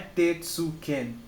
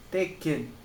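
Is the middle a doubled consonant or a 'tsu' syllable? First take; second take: tsu syllable; doubled consonant. First: A full tsu syllable is said before the k. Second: The k sound is held, with no tsu syllable. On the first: The speaker calls it wrong. "Não é tetsuken" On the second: The speaker calls it right. "você simplesmente vai dobrar essa letra"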